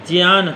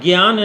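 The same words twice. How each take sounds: First: The word begins with a j and ny sound. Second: The word begins with a g and y sound. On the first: The speaker calls it right. "ज्ञ बनता है जा धन इया से, इसलिए इसका उच्चारण होगा ज्ञान।" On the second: The speaker calls it wrong. "ग इया से नहीं बनता है, इसलिए ज्ञान कभी न कहें।"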